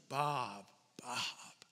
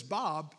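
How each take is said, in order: First: Softer, lower tender double call; caring. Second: Said in the usual way. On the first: Shown as a demonstration. Speaker demonstrating a caring double call of Bob, softer and lower. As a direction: say the name twice with care. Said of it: "it's a word of care". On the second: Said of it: "If someone says".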